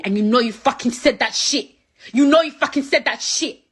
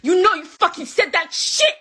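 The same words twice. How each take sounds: First: Angry accusation. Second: Much higher, louder yell; climbing into a furious yell; furious accusation. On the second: Angry accusation building. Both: Real, not acted.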